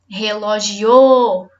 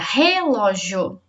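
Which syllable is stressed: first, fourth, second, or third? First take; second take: fourth; first. First: The stress is on the fourth syllable. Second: The stress is on the first syllable. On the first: "Se for o o" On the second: "Se for o re, a sílaba mais forte fica"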